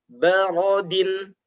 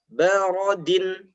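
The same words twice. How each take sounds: No difference in how they are said.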